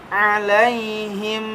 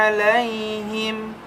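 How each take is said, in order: No difference in how they are said.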